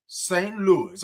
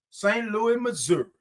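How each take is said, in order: First: Said in the usual way. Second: "Louis" lifted high as Louie, "Missouri" as Mizzur; playful local pronunciation. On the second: Acted. Host echoes Denise's hometown, saying Louie, Mizzur.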